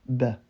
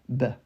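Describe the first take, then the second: First: The vowel is a lightened A, nearer E. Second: The vowel is a lightened A, nearer E.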